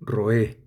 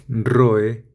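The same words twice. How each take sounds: First: "roé" stressed on the final É; "roé" with the accent falling on é; stress on last syllable. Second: "Roe" stressed on the O; "Roe" without accent, RO stronger than e; stress on first syllable. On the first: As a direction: say "roé" as ro-É, weight on the last vowel. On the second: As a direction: say "Roe" as RO-e, weight on the first vowel. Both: Shown as a demonstration. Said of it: "con o sin tilde".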